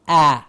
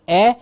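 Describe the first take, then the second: First: The vowel is a wide open ah sound. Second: The vowel is a narrower, less open sound. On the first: The speaker calls it right. "Open, clear, a sound" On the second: The speaker calls it wrong. "It's not an a"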